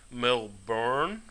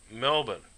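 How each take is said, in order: First: "Melbourne" said slowly as Mel-BORN with a full r; wrong pronunciation. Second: "Melbourne" said short as MEL-bn, no r sound; right pronunciation. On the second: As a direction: clip "Melbourne" down to MEL-bn like a local. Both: Shown as a demonstration. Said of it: "Not Melbourne".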